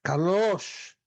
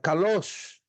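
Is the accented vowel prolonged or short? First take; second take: prolonged; prolonged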